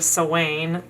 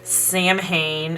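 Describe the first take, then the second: First: It is said like 'sow-in', unlike the spelling. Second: It is said the way it is spelled. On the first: The speaker calls it right. "instead of Sawane" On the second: The speaker calls it wrong. "people say Samhain instead of"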